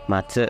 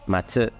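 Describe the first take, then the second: Both takes have the same delivery.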